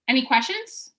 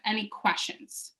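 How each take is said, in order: First: The voice rises at the end. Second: The voice falls at the end. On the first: The speaker sounds unsure. The speaker calls it wrong. "your voice is going to go up. ... That's what not to do" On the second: The speaker sounds confident. The speaker calls it right. "is my voice going down as if it's a statement?"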